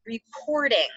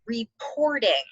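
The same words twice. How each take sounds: First: Said in the usual way. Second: Slow, clear "reporting"; teacher dictating the spelling word; dictation word. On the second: Shown as a demonstration. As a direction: say "reporting" carefully, every syllable. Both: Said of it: "The word is".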